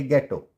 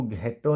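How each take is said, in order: First: गेटो with plain hard g; correct, silent h. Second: घेटो with aspirated gh; wrong, h sounded. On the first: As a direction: say गेटो with no puff after g. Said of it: "इसको पढ़ेंगे". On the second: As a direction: say घेटो with a puff after g. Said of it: "नहीं पढ़ेंगे". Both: Shown as a demonstration.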